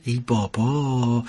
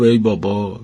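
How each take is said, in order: First: Slow, softer drawn-out sigh; sighing old wife. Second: Said in the usual way. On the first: Acted. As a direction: let it sag with a weary sigh. Old wife sighs dismissively. (آه کشیدهٔ آرام و خسته)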